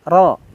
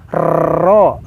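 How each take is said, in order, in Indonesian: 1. R dibuat dengan satu ketukan cepat. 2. R ditakrir dengan ketukan lidah yang berulang. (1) "Tapi hanya ro, ro, langsung saja" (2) "Jangan nempelannya ini berulang-ulang. Takrir, ini nggak boleh"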